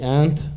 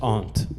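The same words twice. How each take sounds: First: It is said with an American pronunciation. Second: It is said with a non-American pronunciation.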